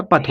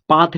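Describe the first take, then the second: First: पथ with a short a; correct short vowel. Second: पाथ with a long aa; wrong long vowel. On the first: Teacher correcting the misreading, short a in पथ. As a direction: keep पथ short as path, no long aa. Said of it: "पथ होता है". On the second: Teacher rejecting the literal reading, long aa in पाथ. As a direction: stretch the vowel to paath in पाथ. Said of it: "पाथ नहीं होता". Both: Shown as a demonstration.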